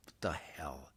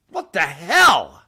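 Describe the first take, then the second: First: Hushed, breathless whisper of disbelief; whispered what the hell. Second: Slow, loud, stretched-out outrage; drawn-out what the hell. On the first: Ranting about property taxes, a sudden whispered aside. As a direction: drop to a stunned whisper. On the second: Ranting at Texans, a slow loud disbelieving groan. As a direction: drag out every word in disgust. Rant against the governor. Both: Real, not acted.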